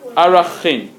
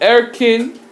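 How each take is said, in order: First: The word is said as arachin. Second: The word is said as erkin. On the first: "called arachin" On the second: "Some people pronounce it erkin"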